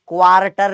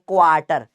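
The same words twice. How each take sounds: First: The r sound after the vowel is pronounced. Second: The r sound after the vowel is silent. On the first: The speaker calls it wrong. "क्वार्टर नहीं बोलते" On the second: The speaker calls it right. "आर silent होता है, इसको क्वार्टर बोलते हैं"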